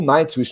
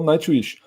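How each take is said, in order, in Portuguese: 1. É falado com sons parecidos com o inglês. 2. É falado com sons do português brasileiro.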